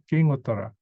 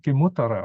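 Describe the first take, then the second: First: The first word ends in a nasal ng sound. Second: The first word ends in a plain m sound. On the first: "instead of uh, nasal" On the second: "you can pronounce the king here as a simple M"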